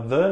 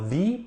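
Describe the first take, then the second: First: The word is said with a short, weak vowel. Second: The word is said with a long 'ee' vowel. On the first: The next word begins with a consonant. The speaker calls it right. "A gente fala the" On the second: The next word would begin with a vowel. The speaker calls it wrong. "não fala the"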